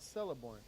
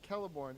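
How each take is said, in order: First: The name begins with an S sound. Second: The name begins with a K sound. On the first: The speaker calls it wrong. "never of S" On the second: The speaker calls it right. "C always has the value of K"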